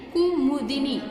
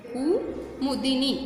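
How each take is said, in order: First: Said in the usual way. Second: Kumudini drawn out slowly, syllable by syllable; slow model word. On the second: Shown as a demonstration. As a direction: say Kumudini slowly so the kids can copy each syllable. (कुमुदिनी को धीरे-धीरे, एक-एक अक्षर बोलकर) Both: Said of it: "teacher repeats word slowly for pupils".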